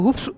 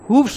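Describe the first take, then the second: First: The word ends with an f sound before s. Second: The word ends with a v sound before s. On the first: "इसके आगे S लगा दो" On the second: "एफ को हटा दिया और इसकी जगह वी ई एस लिख दिया"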